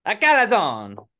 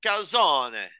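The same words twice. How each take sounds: First: Calzone stretched slow, high and loud; drawn out, loud, high Calzone; exaggerated accent. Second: Mock Italian pronunciation of Calzone; Italian accent. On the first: Mock accent take. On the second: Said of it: "I am allowed to do an Italian accent".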